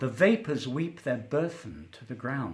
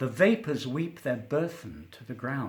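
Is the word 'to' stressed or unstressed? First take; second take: unstressed; unstressed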